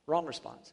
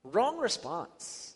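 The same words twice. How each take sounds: First: Wrong hit with a falling tune, quieter; stress on Wrong. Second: Drawn out, slow and deliberate; slow and low. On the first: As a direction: land on Wrong, then let it fall. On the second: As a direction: stretch it out slowly, softly. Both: Shown as a demonstration.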